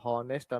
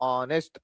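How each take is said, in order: First: The word begins with an h sound. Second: The word begins with a vowel sound. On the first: The speaker calls it wrong. "ಹಾನೆಸ್ಟ್ ಅನ್ನಂಗಿಲ್ಲ" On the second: The speaker calls it right. "ಇಲ್ಲಿ ಎಚ್ silent ಇರ್ತಾ ಇದೆ"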